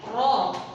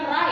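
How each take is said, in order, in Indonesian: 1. Huruf ini diucapkan dengan vokal 'o' yang berat. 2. Huruf ini diucapkan dengan vokal 'a' yang ringan. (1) "tetapi ro" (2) "bukan ra ya"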